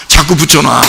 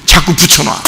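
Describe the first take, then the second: No difference in how they are said.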